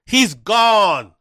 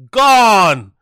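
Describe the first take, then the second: First: Said in the usual way. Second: "Gone" said louder and falling; "Gone" punched out louder as the last word; stressed repeat. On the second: Real, not acted. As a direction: lean on "Gone" like a final verdict.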